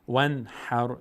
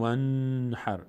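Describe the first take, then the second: First: "ونحر" with a clear n released at once; "ونحر" with no hum on the n; clear short n. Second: "ونحر" lingering on a long n; "ونحر" with a faulty hummed n; wrongly held n. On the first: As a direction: pass straight from n to h in "ونحر". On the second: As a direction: stretch the n before the h in "ونحر". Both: Shown as a demonstration.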